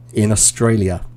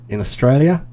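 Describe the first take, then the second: First: Said in the usual way. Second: "Australia" ends on an upward lift; statement turned up at the end, Australian style; Australian rising end. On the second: Shown as a demonstration. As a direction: tilt "Australia" up at the end like a question. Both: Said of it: "everything goes up at the end".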